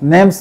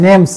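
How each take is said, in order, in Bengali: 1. এটি একটি সংকুচিত শব্দ হিসেবে বলা হয়, name's। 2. এটি একটি সংকুচিত শব্দ হিসেবে বলা হয়, name's।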